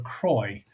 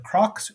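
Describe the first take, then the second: First: The name ends with an 'oy' sound. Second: The name ends with a 'ks' sound. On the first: This is the European pronunciation. "Croy is the European version" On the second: This is the North American pronunciation. "Crocs is the uh, mainland or the North American version"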